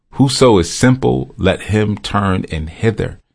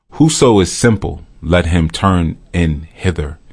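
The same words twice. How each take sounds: No difference in how they are said.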